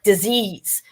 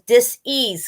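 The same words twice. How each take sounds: First: The word is said smoothly as one unit. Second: The word is split into two separate parts. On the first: It names an illness. The speaker calls it wrong. "we're saying it like disease" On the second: It means the body is not at ease. The speaker calls it right. "pronouncing the word dis disease correctly"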